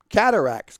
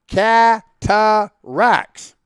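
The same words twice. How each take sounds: First: The word is said quickly and run together. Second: The word is said slowly and clearly. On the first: "don't say ka-ka-ka" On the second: "I'll say it for you slow and clear"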